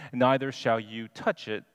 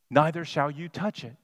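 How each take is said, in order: First: Said in the usual way. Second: Neither leaned on, falling; stress on Neither. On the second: Shown as a demonstration. Preacher pointing out Eve's added words, stress on Neither. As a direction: hit "Neither" as the added word. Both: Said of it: "She added".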